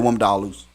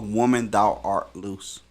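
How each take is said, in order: First: It is said fast, run together like one word. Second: It is said slowly, word by word with pauses.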